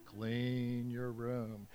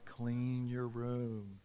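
No difference in how they are said.

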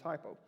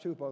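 First: The first vowel sounds like 'eye'. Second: The first vowel sounds like 'oo'. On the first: This is the everyday English pronunciation. "than it is hypo" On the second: This is the original Greek pronunciation. "it's just actually pronounced hupo"

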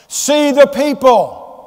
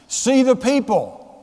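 First: The phrase is said loudly and forcefully. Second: The phrase is said at a normal, quieter volume.

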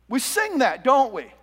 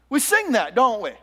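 Both takes have the same delivery.

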